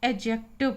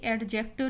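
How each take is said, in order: First: एडजेक्टिव with a silent D, 'a-jective'; correct pronunciation. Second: एडजेक्टिव with the D sounded before J; wrong pronunciation. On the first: Teacher corrects the grammar word, D left silent. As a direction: drop the D in एडजेक्टिव. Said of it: "यानी डी का जो उच्चारण है वो silent". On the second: Teacher rejects the common reading, D pronounced. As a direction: say एडजेक्टिव as 'ad-jective', D audible. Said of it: "नहीं पढ़ते हैं". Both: Shown as a demonstration.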